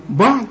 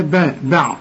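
First: "بعض" with the ba thick and dark, higher questioning pitch; wrong heavy ba. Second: "با، بعض" with a thin ba before the heavy dad; light ba. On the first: Teacher testing the student, wrong heavy ba. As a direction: darken the start of "بعض" as a question. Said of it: "لا برضو". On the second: Teacher correcting the student, light ba. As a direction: start "بعض" on the light vowel of "با". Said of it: "رقق الباء". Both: Shown as a demonstration.

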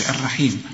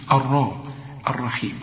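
First: الرحيم with a thin, fronted RA; wrong light ra. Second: الرحيم with a full, dark RA; heavy ra. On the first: Teacher shows the mistake, thin ر in الرحيم. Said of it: "ما تقولش الرحيم". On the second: Teacher corrects the ra, heavy الرحيم. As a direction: thicken the ر and its vowel in الرحيم. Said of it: "الراء ما دام مفتوحة". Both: Shown as a demonstration.

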